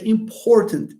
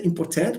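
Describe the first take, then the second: First: "important" stressed on POR, falling away after; "important" as im-POR-tənt, weak ending; correct word stress. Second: "important" with a full, stressed last syllable, -TANT; "important" said wrongly as im-por-TANT; wrong word stress. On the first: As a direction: hit the middle of "important" and reduce the last syllable. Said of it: "we say important". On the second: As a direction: mispronounce "important", leaning on a clear "-tant" at the end. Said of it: "we don't say important". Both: Shown as a demonstration.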